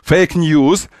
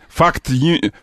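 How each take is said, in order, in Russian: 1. Произносится на стандартном английском. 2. Произносится с сильным иностранным акцентом. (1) "Это фейк ньюс" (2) "Мне нравится, как Мадуро говорит по-английски"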